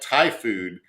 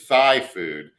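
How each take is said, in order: First: Thai is pronounced the usual way. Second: Thai is pronounced with an altered sound. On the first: The speaker calls it right. "he would say they like Thai food" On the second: The speaker calls it wrong. "intentionally mispronounce it"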